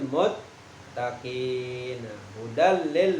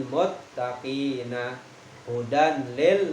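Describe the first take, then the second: The two takes are said the same way.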